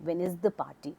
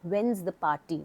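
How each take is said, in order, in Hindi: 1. 'is' शब्द पूरे शब्द की तरह पूरा बोला जाता है। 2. 'is' शब्द 'when' के साथ जुड़कर छोटा हो जाता है।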